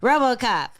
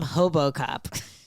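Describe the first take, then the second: First: The name starts with an English R sound. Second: The name starts with an H-like sound.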